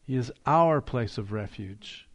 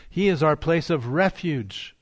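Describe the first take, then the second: First: Our leaned on, the rest level; stress on our. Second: Refuge given the weight, falling at the end; stress on refuge. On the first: Pastor showing the congregation where to stress, our emphasized. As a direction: press gently on the word our. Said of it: "We put the stress on our". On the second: Pastor to congregation, shifting the stress onto refuge. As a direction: let refuge carry the line. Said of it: "put the stress on the word refuge". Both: Shown as a demonstration.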